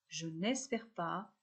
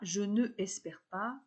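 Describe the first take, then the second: First: The vowel of ne is dropped before espère. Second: The vowel of ne is kept before espère. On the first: The speaker calls it right. "mais je n'espère pas" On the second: The speaker calls it wrong. "On ne dit pas"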